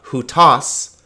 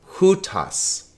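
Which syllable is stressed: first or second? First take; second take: second; first. First: The stress is on the second syllable. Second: The stress is on the first syllable. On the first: The speaker calls it wrong. "so it's not hutos" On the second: The speaker calls it right. "The accent is on the first syllable"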